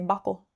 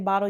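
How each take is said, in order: First: The middle consonant sounds like a k. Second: The middle consonant sounds like a t. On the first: "you say buckle. Like, where'd the cake come from?" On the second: "you guys don't say bottle"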